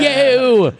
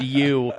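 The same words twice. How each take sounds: First: "Yo!" said high and loud for "you"; fake British "you". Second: Said in the usual way. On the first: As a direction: pitch "Yo!" up and shout it like a mock British band. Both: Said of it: "that's how they would say the, the word "you".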